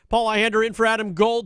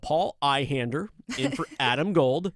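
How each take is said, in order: First: The phrase is spoken quickly, words running together. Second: The phrase is spoken slowly, each word clearly enunciated. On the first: The speaker calls it wrong. "I say that fast a little bit" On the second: The speaker calls it right. "I could slow my pacing down a little"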